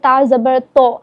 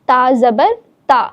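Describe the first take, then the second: First: The syllable ta sounds heavy and rounded. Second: The syllable ta sounds thin and light. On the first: The speaker calls it wrong. "हम जैसे पढ़ देते हैं ता ज़बर तो, तो ये गलत है" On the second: The speaker calls it right. "ता को हम बारीकी के साथ पढ़ते हैं"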